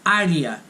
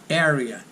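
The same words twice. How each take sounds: First: It is pronounced with Portuguese vowels. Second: It is pronounced with English vowels. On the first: The speaker calls it right. "but we say area" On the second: The speaker calls it wrong. "not area"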